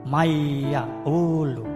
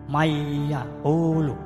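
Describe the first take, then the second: Both takes have the same delivery.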